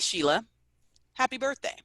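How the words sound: The greeting sounds flat and unexcited. The speaker does not really care about the birthday. "does that sound like I'm really excited that it's her birthday? Probably not"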